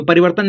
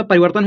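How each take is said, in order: First: परिवर्तन as a learner's misreading; wrong reading. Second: परिवर्तन joined as one normal word; correct reading. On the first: Teacher shows what the word is not, misread परिवर्तन. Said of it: "परिवर्तन नहीं होता". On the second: Teacher corrects the guess, परिवर्तन read properly. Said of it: "परिवर्तन होता है". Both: Shown as a demonstration.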